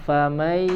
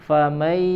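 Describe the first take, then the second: Both takes have the same delivery.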